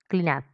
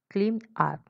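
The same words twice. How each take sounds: First: The two words are joined together. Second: The two words are said separately.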